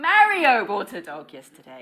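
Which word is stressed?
Mario. The word Mario carries the main stress. It was Mario, not Maria.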